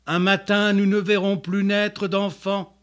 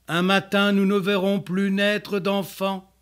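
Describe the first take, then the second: No difference in how they are said.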